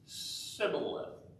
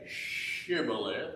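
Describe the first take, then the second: First: The word begins with a plain 's' sound. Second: The word begins with a 'sh' sound. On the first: This marks the speaker as an Ephraimite. The speaker calls it wrong. "he said Sibboleth. He left out the H sound" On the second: This is how the Gileadites said it. The speaker calls it right. "He didn't say Shibboleth"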